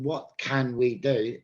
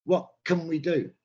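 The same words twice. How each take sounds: First: "can" with its full "a" vowel. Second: "can" reduced to "kun" between the words; natural weak "can". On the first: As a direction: say each word fully, "can" as in a tin can. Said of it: "So I've changed the word can". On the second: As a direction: model everyday English with "can" weakened to "kun". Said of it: "in natural English". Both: Shown as a demonstration.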